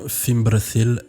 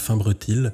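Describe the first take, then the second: First: The middle consonant is a soft th sound. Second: The middle consonant is a plain t sound. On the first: The speaker calls it right. "je dis bien Fimbrethil" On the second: The speaker calls it wrong. "et pas Fimbretil"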